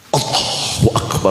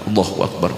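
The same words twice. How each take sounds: First: It is drawn out with exaggerated careful articulation. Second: It is said quickly and with little care. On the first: Others are watching, so the prayer is shown off. "wis sampai makhorijul hurufnya itu sampai lebih" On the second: No one is watching, so the prayer is rushed. "Tapi kalau nggak ada orang"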